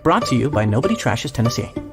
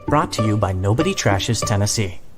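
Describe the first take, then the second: First: It is said in a rushed way. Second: It is said at an unhurried pace.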